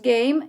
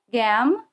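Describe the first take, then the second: First: The vowel is long, like its letter name. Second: The vowel is short, not like its letter name. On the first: The speaker calls it right. "nós damos game" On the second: The speaker calls it wrong. "e não gam"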